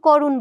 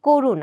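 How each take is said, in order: First: The first vowel is an open 'a' sound. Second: The first vowel is a closed 'o' sound. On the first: The speaker calls it wrong. "আমরা কিন্তু করুণ বলি না" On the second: The speaker calls it right. "এই শব্দটার উচ্চারণ আমরা করে থাকি কিন্তু করুণ"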